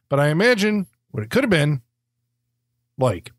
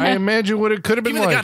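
First: It is read in a halting, overdramatic put-on voice. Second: It is read in a plain, even, natural voice. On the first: The speaker calls it wrong. "Instead of doing Shatner" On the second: The speaker calls it right. "I should say that again"

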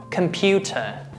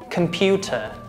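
First: It is said with British pronunciation. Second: The same.

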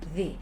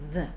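First: The word ends in a clear 'ee' vowel. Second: The word ends in a short 'uh' vowel. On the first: The next word starts with a vowel. "Eğer kelimemiz ünlüyle başlıyorsa the gelecek arkadaşlar" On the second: The next word starts with a consonant. "Eğer bu kelimeden sonra gelen kelime ünsüz bir harfle başlıyorsa the diyeceğiz. I sesiyle"

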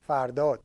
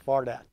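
First: The name is said in its original, non-English way. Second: The name is said the English way. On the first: The speaker calls it right. "Correct pronunciation of my name is Fardot" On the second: The speaker calls it wrong. "when you talk in English, it becomes Fardad"

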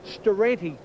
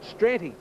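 First: A vowel separates the 'st' from the 'r'. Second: The 'st' runs straight into the 'r'. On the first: The speaker calls it right. "the correct pronunciation is Staranti" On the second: The speaker calls it wrong. "I was calling it Stranti"

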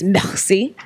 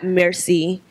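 First: The r is rasped in the back of the throat. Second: The r is plain, not from the throat. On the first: The speaker calls it right. "in the back of your throat" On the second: The speaker calls it wrong. "It's not merci"

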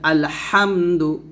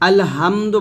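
First: The h sound is pressed with strong breath. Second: The h sound is light and unforced. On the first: The speaker calls it right. "হা চাপতে বলতে হবে" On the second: The speaker calls it wrong. "শুধু আলহামদু বলা যাবে না"

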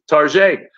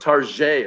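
First: The name is said in a fancy, posh pronunciation. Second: The name is said in its ordinary pronunciation.

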